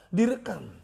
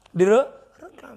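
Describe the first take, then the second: First: Said in the usual way. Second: Direkam said slowly and loudly, the r rolled; slow, loud, deliberate Direkam; stretched emphasis. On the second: Shown as a demonstration.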